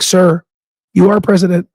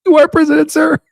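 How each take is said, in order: First: Mock polite retort. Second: High, laughing retort. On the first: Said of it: "I almost wanted to comment". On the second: Real, not acted. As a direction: say it cracking up.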